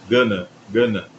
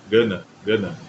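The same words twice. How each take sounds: Both takes have the same delivery.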